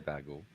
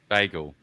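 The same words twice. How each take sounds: First: The first vowel sounds like 'beg'. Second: The first vowel sounds like 'bay'. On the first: "You just said it like B E G G E L" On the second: "Oh, now you changed it"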